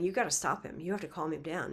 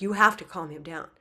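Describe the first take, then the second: First: Said in the usual way. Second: Louder, pressing repeat of the plea; insistent plea. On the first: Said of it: "they say to Mother Divine". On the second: Acted. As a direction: push hard, now they insist. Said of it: "They're like".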